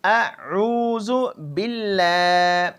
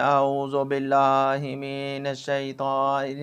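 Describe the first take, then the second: First: اعوذ باللہ slow, with a clean hamza and a doubled heavy لل; the proper tajweed اعوذ باللہ; correct pronunciation. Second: اعوذ باللہ من الشیطان with the vowels carelessly blurred; the mistaken way to say اعوذ باللہ; wrong pronunciation. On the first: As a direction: recite اعوذ باللہ slowly and precisely. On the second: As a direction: demo the sloppy reading of اعوذ باللہ. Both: Shown as a demonstration. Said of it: "نہیں، ایسے نہیں ہے".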